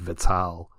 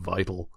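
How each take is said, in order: First: It is said the French way, like élan vital. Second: It is said the English way, like vital. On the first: "I have always pronounced it" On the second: "as opposed to"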